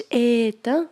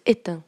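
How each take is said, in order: First: "éteint" with a long, stretched first vowel; wrong drawn-out pronunciation. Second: Said in the usual way. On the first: Shown as a demonstration. Teacher showing pupils what was not said, "éteint" with an over-long opening vowel. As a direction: drag the "é" of "éteint" out before the last syllable. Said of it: "وما قلتش". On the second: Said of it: "ولكن قلت".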